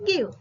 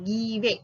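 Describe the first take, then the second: First: The final E is silent. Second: The final E is pronounced. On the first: The speaker calls it right. "it's called give" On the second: The speaker calls it wrong. "not give"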